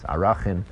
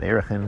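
First: The word begins with an 'ah' sound. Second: The word begins with an 'eh' sound. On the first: The speaker calls it right. "the real pronunciation of Erechin. ... it's Arachin" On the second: The speaker calls it wrong. "It's not Erechin"

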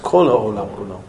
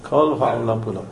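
First: The first word is said with an 'o' vowel. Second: The first word is said with an 'o' vowel.

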